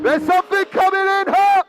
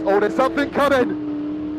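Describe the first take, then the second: First: Higher, louder, eager call; rising excitement. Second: Said in the usual way. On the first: Real, not acted. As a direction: voice lifts as the car nears.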